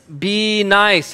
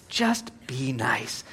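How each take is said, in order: First: Loud, emphatic proclamation; loud announcement. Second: Slow, soft whisper; hushed plea. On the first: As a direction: announce it loudly to the whole crowd. Announces the point to everyone. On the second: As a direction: whisper it slowly like a gentle reminder. Softly repeats the point. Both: Shown as a demonstration.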